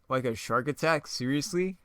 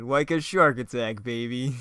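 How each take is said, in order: First: Lightly disbelieving question, "seriously" pitched up; incredulous echo. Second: Slow, loud punch on "shark attack"; cheesy villain one-liner. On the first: Hero repeating the villain's bad line back, mildly incredulous. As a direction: echo "shark attack" as a doubtful question. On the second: Reader voicing the villain's terrible one-liner, hammy. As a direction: relish "shark attack" like a bad catchphrase. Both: Acted.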